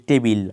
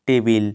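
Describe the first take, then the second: The two takes are said the same way.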